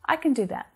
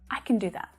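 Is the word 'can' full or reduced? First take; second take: reduced; full. First: 'Can' is unstressed with a reduced schwa vowel. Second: 'Can' is stressed with a full vowel. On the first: "compared to the unstressed form" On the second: "when we're stressing that word for emphasis"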